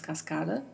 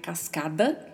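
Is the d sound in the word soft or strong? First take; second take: soft; strong. First: The d sound is soft and weak. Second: The d sound is strongly marked. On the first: The speaker calls it right. "falamos cascada. E o som da letra D é mais suavizado" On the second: The speaker calls it wrong. "não é cascada"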